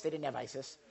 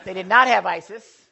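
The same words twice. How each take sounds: First: Said in the usual way. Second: "not" hit hard and louder, correcting himself; firm correction, punching "not" in "They did not have Isis"; stress on not. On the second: Shown as a demonstration.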